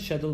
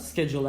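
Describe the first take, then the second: First: The word is said with a British accent. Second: The word is said with an American accent. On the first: "British talaffuzligini"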